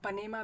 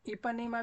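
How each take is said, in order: First: The word starts without the initial 'i' sound. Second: The word starts with an 'i' sound. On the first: "इसमें आई साइलेंट आप माने अगर" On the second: "इपानेमा भी कह सकते हैं"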